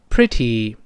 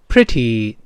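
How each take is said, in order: Both takes have the same delivery.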